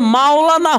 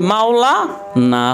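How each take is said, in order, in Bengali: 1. এটি একটানা একটি শব্দ হিসেবে বলা হয়। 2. 'na'-র আগে একটু বিরতি দিয়ে ভেঙে বলা হয়।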